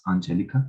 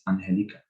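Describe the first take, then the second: First: The G is said like an English J. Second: The G is said like a breathy H. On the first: The speaker calls it wrong. "not G, not Angelica" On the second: The speaker calls it right. "pronounced like ha, ha"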